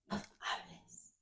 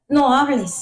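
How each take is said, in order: First: It is said quietly, in a soft voice. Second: It is said at a normal speaking volume. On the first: The inner voice fades when it is ignored. "la voz del Espíritu se va a hacer bajita" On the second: The inner voice is heard clearly at first. "La voz del Espíritu Santo se hace así"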